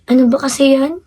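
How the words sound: It is said in a disappointed tone.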